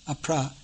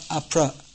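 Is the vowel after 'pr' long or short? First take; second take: long; short. First: The vowel after pr is long. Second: The vowel after pr is short. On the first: The speaker calls it right. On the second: The speaker calls it wrong.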